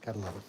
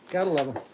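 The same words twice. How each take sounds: First: Said in the usual way. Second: Excited. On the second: Real, not acted.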